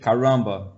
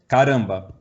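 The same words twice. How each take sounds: First: The R is pronounced in a foreign-sounding way. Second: The R is pronounced in a native Portuguese way. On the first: This is how a foreigner would say it. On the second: This is how a native speaker says it.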